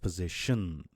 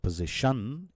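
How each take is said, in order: First: The last syllable has a short schwa. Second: The last syllable has a full vowel. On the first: The speaker calls it right. "it's position. So it's a schwa sound" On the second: The speaker calls it wrong. "So it's not position"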